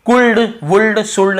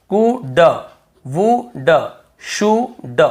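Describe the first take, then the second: First: कुल्ड, वुल्ड, शुल्ड with an audible L before D; L wrongly sounded. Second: कुड, वुड, शुड each split into vowel, pause, "duh"; L left silent. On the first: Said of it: "नहीं पढ़ना है". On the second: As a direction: sound out कुड, वुड, शुड in separate beats without L. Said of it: "केवल". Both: Shown as a demonstration.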